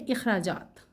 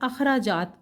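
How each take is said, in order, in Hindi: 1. यह शब्द छोटी 'i' की आवाज़ से शुरू होता है। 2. यह शब्द छोटी 'a' की आवाज़ से शुरू होता है। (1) "सही अदायगी है इखराजात" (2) "हम इसकी अदायगी करते हैं आम तौर पर अखराजात के लफ्ज़ से, जो कि गलत है"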